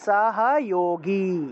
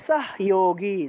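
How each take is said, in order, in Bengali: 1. h ধ্বনির পরে তার নিজের স্বরধ্বনি থাকে। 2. h ধ্বনিটি পরের ব্যঞ্জনের সঙ্গে যুক্ত হয়, কোনো স্বরধ্বনি ছাড়া। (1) "আর যেহেতু এখানে হসন্ত নাই, তাহলে সহযোগী এইভাবে উচ্চারণটা হবে" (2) "উচ্চারণটা হবে সহযোগী যদি হয়ের নিচে হসন্ত থাকে"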